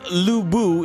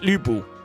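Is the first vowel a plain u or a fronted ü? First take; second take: plain u; fronted ü. First: The first vowel is a plain u. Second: The first vowel is a fronted ü. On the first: The speaker calls it wrong. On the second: The speaker calls it right.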